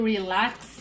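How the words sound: It is said with an English pronunciation. "É um nome em inglês, né? Deve ser Relax"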